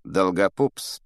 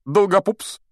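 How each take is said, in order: First: Lightly voiced disdainful professor, near narrator's pitch; cool Snape. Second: High, loud call of a pupil's name; firm Lockhart. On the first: Professor objecting to the chosen pupil, cool disdain. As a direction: say the name coolly, rising, unhurried. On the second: A narrator's reading. Teacher picking a volunteer from the pupils, firm and high. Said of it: "сказал твёрдым голосом".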